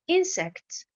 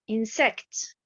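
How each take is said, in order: First: The stress is on the first syllable. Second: The stress is on the second syllable. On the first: The speaker calls it right. "la bonne prononciation" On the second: The speaker calls it wrong. "la mauvaise prononciation"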